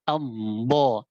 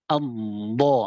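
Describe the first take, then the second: No difference in how they are said.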